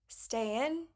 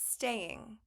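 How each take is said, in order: First: The ending is a short 'in' without the g. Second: The ending is a full 'ing' sound. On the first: The speaker calls it wrong. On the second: The speaker calls it right.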